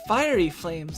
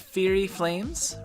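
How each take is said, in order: First: The first word is pronounced like 'fiery'. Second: The first word is pronounced like 'fury'. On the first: The speaker calls it right. "It's Fiery Flames" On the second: The speaker calls it wrong. "what the fuck is the Fury Flames?"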